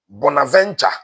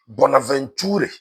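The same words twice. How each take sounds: First: Bonaventure as "bona-VEN-cha"; Anglophone pronunciation. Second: Bonaventure slowly, ending "too-reh"; Francophone pronunciation. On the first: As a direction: say Bonaventure the English way, ending "cha". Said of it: "those of us who speak English". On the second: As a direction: sound the final e in Bonaventure, "tu-re". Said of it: "French pro-, eh, pronunciation". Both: Shown as a demonstration.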